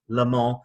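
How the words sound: It is said the English and French way.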